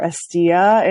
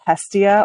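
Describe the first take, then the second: First: The name is said the Greek way. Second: The name is said the English way.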